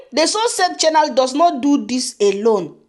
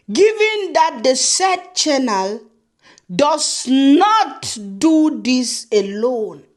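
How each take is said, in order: First: Said in the usual way. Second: Very slow, drawn-out letter phrasing; slow mock reading. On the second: Reading the rival's letter to viewers, slow and mocking. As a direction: stretch each word to mock it. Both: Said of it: "show you guys my own letter".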